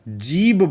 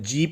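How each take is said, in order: First: The word ends with a voiced b sound. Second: The word ends with a voiceless p sound. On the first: It may be how another country says it. "जीब बोलते हैं, बा निकालते हैं, पा नहीं निकालते हैं" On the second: It is how Saudi Arabia and Kuwait say it. "हमारी नॉलेज में जीप ही बोला जाता है"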